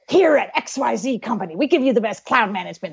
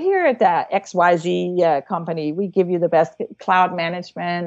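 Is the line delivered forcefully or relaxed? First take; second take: forceful; relaxed. First: The line is delivered with a lot of force. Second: The line is delivered calmly without much force. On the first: A forgotten line will be obvious to the audience. The speaker calls it wrong. "you're saying it with a lot of force" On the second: A forgotten line can be covered smoothly. The speaker calls it right. "Instead, you go"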